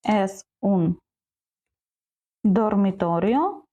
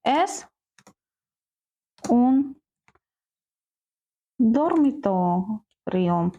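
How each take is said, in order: First: The voice rises at the end like a question. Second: The voice falls at the end like a statement. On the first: It asks whether this is a bedroom. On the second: It states that this is a bedroom.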